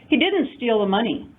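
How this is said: The stress falls on didn't. He is being wrongly accused. "Stop accusing"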